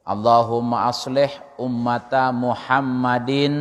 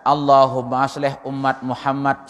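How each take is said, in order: First: Full Arabic endings are voiced and linked together. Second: The word endings are clipped off, Indonesian style. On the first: The speaker calls it right. "Maulana Syekh begitu. Sambung" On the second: The speaker calls it wrong. "Bukan mengatakan ... Itu bahasa Indonesia"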